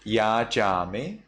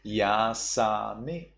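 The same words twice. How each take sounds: First: Yajame with a palatal ch/j sound; yajame, unchanged middle consonant; standard reading. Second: Yasame with S in the middle; Burmese S reading. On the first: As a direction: say yajame as written, rising. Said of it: "Instead of". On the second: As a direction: slowly hiss the sa in yasame. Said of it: "ja sound into sa". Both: Shown as a demonstration.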